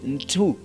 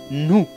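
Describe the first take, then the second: First: A clear t sound follows the n. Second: No t sound follows the n. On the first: The speaker calls it wrong. "Don't pronounce ntu" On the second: The speaker calls it right. "Just the T is pronounced like H mute"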